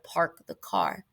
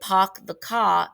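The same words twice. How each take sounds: First: It is said in a general American accent. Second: It is said in a Boston accent. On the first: "instead of" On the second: "in Boston, you know, that's one of the most famous ones, they'll say"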